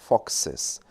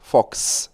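First: The plural ends with an added extra syllable. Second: The plural ends in a squeezed, hissing s sound. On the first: The speaker calls it right. "якщо ви додасте додатковий склад і додасте ES" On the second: The speaker calls it wrong. "Ми як змії. Нам дуже важко це сказати"

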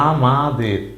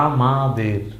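Both takes have the same delivery.

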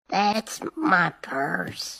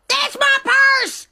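First: It is said at a normal, quiet level. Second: It is shouted loudly.

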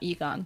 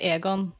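First: The name is pronounced the English way. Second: The name is pronounced the Norwegian way. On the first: The speaker calls it wrong. "not Egon" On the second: The speaker calls it right. "We'd say Aegon"

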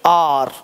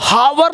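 First: The word begins with a vowel, no h. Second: The word begins with an h sound. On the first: The speaker calls it right. "क्या बोलेंगे आर" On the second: The speaker calls it wrong. "अब हावर नहीं बोलेंगे"

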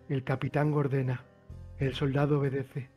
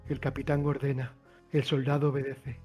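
The two takes are said the same way.

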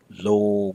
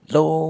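First: The vowel is long and lingering. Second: The vowel has a high, raised pitch. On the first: "It should not be lo with a long, lingering vowel" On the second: "It should not be lo with a higher raised tone as if you're hollering somebody"

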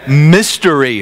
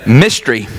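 First: All three syllables are clearly pronounced. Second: The middle vowel is dropped, giving two syllables. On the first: "So I have to say mystery" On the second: "in my southern accent, I just say mystery"

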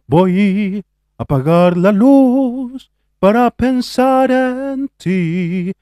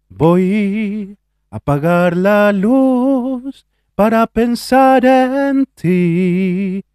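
First: The voice is dark, with a lowered larynx. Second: The voice is brighter, with the larynx not lowered.

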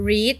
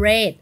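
First: The vowel is long, like 'reed'. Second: The vowel is short, like 'red'. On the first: It is the present form of the verb. "ช่อง1 นี้อ่านว่า" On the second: It is the past form of the verb. "ช่อง2 นี้อ่านว่า"

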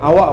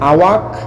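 First: The word ends without a k sound. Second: The word ends with a clear k sound. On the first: The speaker calls it right. "আওয়া বলে" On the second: The speaker calls it wrong. "উচ্চারণ করার সময় আওয়াক বলে না"

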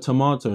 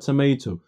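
First: The word is said the non-American way. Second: The word is said the American way. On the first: The speaker calls it right. "It's called a tomato" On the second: The speaker calls it wrong. "not a tomato. You guys in America need to stop just making words more difficult"

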